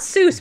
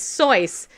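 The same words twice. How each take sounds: First: The vowel is a plain 'oo' sound. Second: The vowel is an 'oy' diphthong sound. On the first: The speaker calls it wrong. "It's not Seuss" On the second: The speaker calls it right. "it's pronounced like ois"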